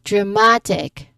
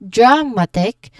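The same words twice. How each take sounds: First: The stress is on the middle syllable. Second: The stress is not on the middle syllable. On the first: The speaker calls it right. "but dramatic" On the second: The speaker calls it wrong. "not dra- not dramatic"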